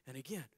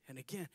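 No difference in how they are said.

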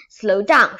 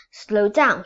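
First: Very loud desperate shout; bigger shout. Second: Loud shout at the horse. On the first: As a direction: yell it harder, the horse won't listen. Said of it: "shouted Harry Smith". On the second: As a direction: yell to rein the horse in. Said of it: "he shouted". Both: Acted.

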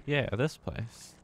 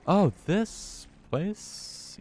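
First: Slow, flat, defeated sigh; resigned. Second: High, very slow groan of dread; drawn-out dismay. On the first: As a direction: accept it with weary dread. Resigned answer to own question. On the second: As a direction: stretch it out in horror. Dismayed return to hated place. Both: Real, not acted.

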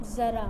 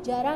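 First: ज़रा said "zaraa" with z; dotted z sound. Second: जरा said "jaraa" with j; undotted j sound. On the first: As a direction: start ज़रा on a buzzing z, not j. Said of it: "इसको क्या पढ़ेंगे?". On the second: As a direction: start जरा on j, no z. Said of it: "हम जरा नहीं पढ़ेंगे". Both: Shown as a demonstration.

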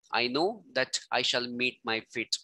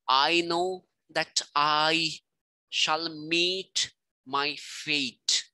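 First: Said in the usual way. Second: Slow, every second beat stressed: "know", "I", "meet", "fate" hit hard; very slow da-dum reading, stress on "meet" and "fate"; iambic beat. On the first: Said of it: "da dum". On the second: Shown as a demonstration. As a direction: scan it slowly like a heartbeat, "I know that I shall meet my fate" with weight on "know", "I", "meet", "fate". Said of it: "da dum, da dum, da dum".

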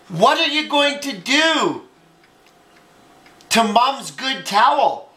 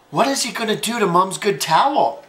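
First: Scandalized storybook exclamation; shocked question. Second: Said in the usual way. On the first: Acted. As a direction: ask it aghast, stretching the words. Gasps, sister alarmed about the towel.

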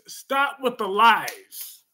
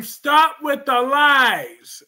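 First: Said in the usual way. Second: Drawn-out, louder accusation; loud and slow. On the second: Real, not acted. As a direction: draw it out to scold. Repeated twice, first louder.

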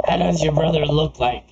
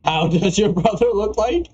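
First: Said in the usual way. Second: LIKE lifted high at the end; re-read it amused, pitch climbing to a rising LIKE; questioning re-read. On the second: Acted. Gamer re-reading an oddly worded question, amused rising tune.

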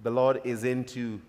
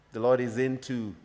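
No difference in how they are said.

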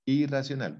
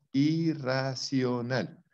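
First: Said in the usual way. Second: Irracional drawn out very slowly; stretched word. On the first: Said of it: "o sea". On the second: Shown as a demonstration. Teacher stretching irracional slowly for the class. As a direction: stretch irracional, slow and deliberate. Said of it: "La fobia es un miedo".

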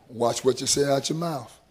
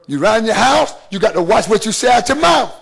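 First: Low and soft, lean in close on "Watch what you say out your mouth"; hushed warning. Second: The preacher hammers home his point with a shout; preached shout. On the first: Hushed warning, later shouted. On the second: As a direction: shout "watch what you say out your mouth" at the congregation. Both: Real, not acted.

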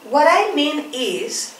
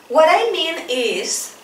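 No difference in how they are said.

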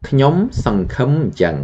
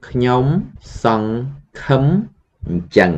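First: ខ្ញុំសង្ឃឹមអញ្ចឹង run together quickly at high pitch; fast whole sentence. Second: ខ្ញុំ … សង្ … ឃឹម … អញ្ចឹង with pauses between each syllable; slow syllable by syllable. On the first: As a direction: rattle off ខ្ញុំសង្ឃឹមអញ្ចឹង in one breath. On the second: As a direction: spell it out slowly for the class. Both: Shown as a demonstration. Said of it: "So the whole sentence".

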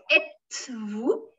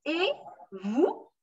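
First: "êtes-vous" with a T sounded before "vous"; wrong liaison. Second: "Et" as an open "ay", separate from "vous"; "Et vous" with the T left silent; no T sound. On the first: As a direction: put a hard T between "et" and "vous". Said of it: "don't put êtes-vous". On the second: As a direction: say "Et", pause, then rising "vous". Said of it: "just et". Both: Shown as a demonstration.

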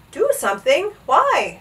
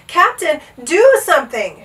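First: High, smiling puzzled question. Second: Loud, high urgent shout. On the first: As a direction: ask lightly, lifting the pitch at the end. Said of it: "smiled the captain". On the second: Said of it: "shouted Bartholomew". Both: A narrator's reading.

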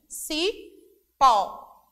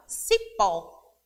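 First: Cipó split slowly, ci, then a strong pó; cipó very slow, with a loud open pó; syllable-by-syllable stress. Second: Cipó with a loud, open final pó; cipó, leaning hard on the accented ó; stress on final syllable. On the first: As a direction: draw out cipó in two separate syllables. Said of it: "Observem aí". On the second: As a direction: punch the last syllable of cipó. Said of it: "é mais forte". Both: Shown as a demonstration.

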